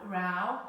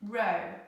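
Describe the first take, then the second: First: The vowel sounds like the one in cow. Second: The vowel sounds like the one in go.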